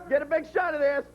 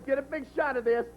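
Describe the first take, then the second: First: Mocking Tony, pushed harder. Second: Mock quote of Tony, level and plain. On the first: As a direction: repeat it with more push to ridicule him. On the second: Mocking Tony to Brian, first take plain. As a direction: put words in Tony's mouth, deadpan. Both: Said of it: "This is what Tony's saying".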